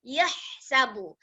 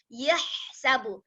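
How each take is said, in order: The two takes are said the same way.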